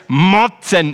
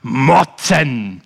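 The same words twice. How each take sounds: First: Louder "motzen", falling; mock grumble. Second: Mock grumble. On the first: Preacher repeats the boy's one-word answer, louder. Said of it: "Er hat gesagt".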